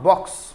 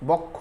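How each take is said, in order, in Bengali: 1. শব্দটি 'ks' ধ্বনি দিয়ে শেষ হয়, কোনো স্বরবর্ণ নেই। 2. শব্দটি 'kkho' ধ্বনি দিয়ে শেষ হয়, স্বরবর্ণ সহ। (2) "বক্ষ না"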